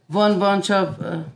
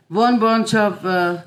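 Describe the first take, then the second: No difference in how they are said.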